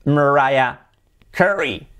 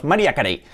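First: "Mariah Carey" as mer-RYE-a KE-ree; English R, stress on RYE in "Mariah"; correct English pronunciation. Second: "María Carey" as ma-REE-a ka-REY; tapped R, full Spanish vowels in "María Carey"; Spanish-style pronunciation. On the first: Teacher revealing the correct name, English pronunciation. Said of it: "la pronunciación correcta sería". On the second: Teacher showing how everyone in Spain says it, hispanicized. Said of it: "en España todos decimos". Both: Shown as a demonstration.

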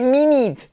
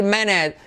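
First: "minute" as high "mee-NEET"; wrong pronunciation. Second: "minute" as "MIN-et", short vowels; correct pronunciation. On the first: Retold or imitated. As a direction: mimic Spanish "minute" with long ee vowels. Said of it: "Para de decir". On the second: Shown as a demonstration. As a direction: say "minute" with a reduced second syllable. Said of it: "empieza a decir".

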